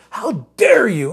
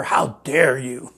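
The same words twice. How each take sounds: First: "How dare you?" higher and slower, "dare" stressed; Paul's indignant challenge, raised up; emphatic. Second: Slow, mocking "How dare you?"; mock the outraged young activist, lightly; a light slow mimic of an indignant activist; Greta Thunberg impression. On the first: Acted. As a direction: lean hard on "dare", slowing down. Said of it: "this is what Paul's doing". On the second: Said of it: "Greta Thunberg or whatever?".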